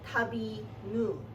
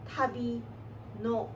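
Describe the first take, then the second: First: The final particle ends in an u vowel. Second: The final particle ends in an o vowel. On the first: This is the Okinawan form. "the first lyric is tabi nu" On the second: This is the Japanese form. "If you were to say it in Japanese"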